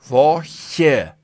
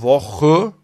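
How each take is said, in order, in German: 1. Das ch wird weich gesprochen, vorne. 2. Das ch wird hart gesprochen, hinten. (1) "ist es unbequem" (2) "da kannst du den Mund zulassen"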